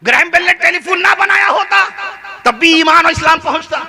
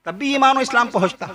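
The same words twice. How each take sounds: First: Raised sermon call; ringing declaration. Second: Said in the usual way. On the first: Shown as a demonstration. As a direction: proclaim Iman with force. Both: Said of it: "repeated quietly after".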